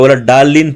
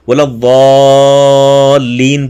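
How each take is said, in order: First: The word starts with a plain d sound. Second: The word starts with an emphatic d sound. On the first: The speaker calls it wrong. "बोला डालीन पढ़ते हैं ... ये गलत हैं" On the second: The speaker calls it right. "वाद बोला वालीन पढ़ना है"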